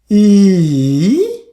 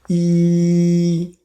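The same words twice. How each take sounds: First: The pitch dips low then rises again. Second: The pitch stays high and level. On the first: "Third tone" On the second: "First tone, E flat"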